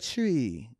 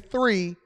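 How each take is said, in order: First: The word begins with a hard 't' sound. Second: The word begins with a soft 'th' sound. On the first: "They say a year tree" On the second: "They don't say three"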